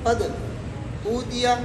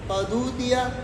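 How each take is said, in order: First: A brief silent break comes before the second word. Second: The consonant runs straight into the next vowel. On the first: "सकते के साथ पढ़ेंगे" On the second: "नकल हरकत के साथ पढ़ेंगे"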